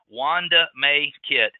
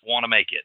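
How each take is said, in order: First: The name is said slowly, word by word. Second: The name is said quickly, words run together.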